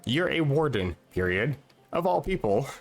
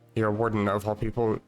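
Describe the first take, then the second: First: There is a clear break after warden. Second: It runs on without a pause after warden.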